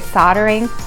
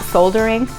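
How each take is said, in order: First: The word is said the usual American way. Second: The word is said as it is spelled. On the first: "why I say soldering" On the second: "not soldering"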